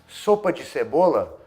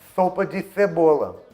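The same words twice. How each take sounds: First: The s sounds are made as plain s. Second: The s sounds are made as lisped th.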